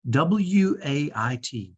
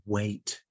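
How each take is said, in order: First: W A I T, each letter said separately and slowly; spelled out letter by letter. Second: Said in the usual way. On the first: Shown as a demonstration. Reading the letters off the wristband, slowly spelled out. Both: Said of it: "it says".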